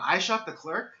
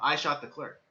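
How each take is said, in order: First: The pitch rises at the end like a question. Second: The pitch falls at the end like a statement. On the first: The speaker is confused and asking a question. "with the upwards inflection" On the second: The speaker is confessing to the shooting. "a lot different from"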